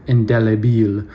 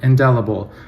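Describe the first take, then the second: First: It is said with a French accent. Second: It is said with an English accent. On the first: "not try to do the French accent" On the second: "which I will continue to say in English"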